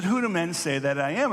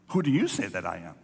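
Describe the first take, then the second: First: Said in the usual way. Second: "you" punched, whole line lower and faster; stress on you. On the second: Retold or imitated. Jesus turning the question on his disciples, stress on "you". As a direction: lean on "you", drop the pitch and press on.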